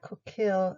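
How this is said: An American accent with the L pronounced. "American pronunciation is more like coquille"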